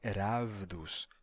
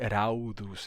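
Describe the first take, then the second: First: A v consonant follows the first vowel. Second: A u vowel follows the first vowel. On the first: A modern Greek would say it this way. "ele vai dizer ravdos" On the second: A modern Greek would not say it this way. "ele não vai dizer raudos"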